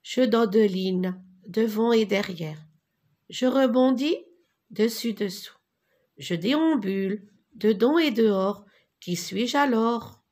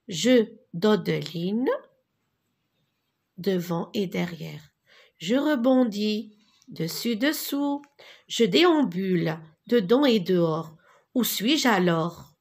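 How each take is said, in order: First: Lilting singsong chant of a rhyme, a bit brighter; rhythmic recitation. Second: Lilting singsong chant of a rhyme; rhythmic recitation. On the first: Teacher leading the class, reciting the rhyme together. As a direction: recite it so the class can repeat. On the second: Teacher to pupils, chanting the rhyme as a model. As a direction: chant it for children to echo. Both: Shown as a demonstration. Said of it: "Je répète et répétez avec moi".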